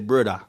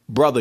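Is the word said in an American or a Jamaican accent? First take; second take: Jamaican; American. First: It is said in a Jamaican accent. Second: It is said in a plain American accent. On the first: "in Jamaica, y'all say brother" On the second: "y'all don't even say brother"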